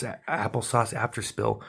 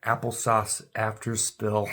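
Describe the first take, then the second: First: Trips over "a-, applesauce", restarting the word; tongue-tied "applesauce after spill"; stumbling on applesauce. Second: Slow, deliberate "applesauce after spill"; getting "applesauce" right at last; careful retry. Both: Real, not acted. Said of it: "It took me a minute to say it".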